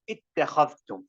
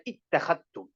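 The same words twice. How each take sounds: First: "اتخذتم" with dh sounded before t, ittakhadhtum; "اتخذتم" without idgham, both consonants heard; unmerged reading. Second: "اتخذتم" with dh merged into a double t, ittakhattum; "اتخذتم" as ittakhattum, no dh heard; Shu'bah idgham. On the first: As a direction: keep the dhal distinct in "اتخذتم". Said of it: "we're doing Idgham right now. When you're reading". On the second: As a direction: assimilate the dhal into the ta in "اتخذتم". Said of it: "Shu'bah, his Idgham even is different". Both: Shown as a demonstration.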